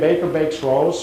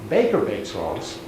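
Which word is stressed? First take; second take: rolls; baker. First: It is said with plain, neutral stress. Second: The stress falls strongly on 'baker'. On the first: It tells what the baker does. "it would normally stay like this" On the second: It is the baker, not someone else, who bakes them. "you are putting the stress on baker"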